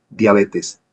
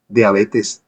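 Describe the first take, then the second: First: Said in the usual way. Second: "Diabetes" dicho "deabetes", con e en vez de i; wrong pronunciation. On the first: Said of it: "Lo correcto es diabetes". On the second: Shown as a demonstration. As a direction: say "Diabetes" as "de-abetes", the first i opened to e. ("Diabetes" pronunciado mal, como "deabetes")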